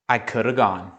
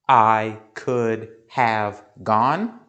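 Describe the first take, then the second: First: The word 'have' is reduced to 'a'. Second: The word 'have' is pronounced fully.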